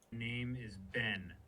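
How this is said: The voice sounds harsh and angry.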